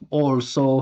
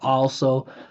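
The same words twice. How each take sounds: First: It is said mostly with pushed-forward, rounded lips. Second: It is said with relaxed lips and open space. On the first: The speaker calls it wrong. "it's like he's kissing the air" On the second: The speaker calls it right. "Look how relaxed my lips are"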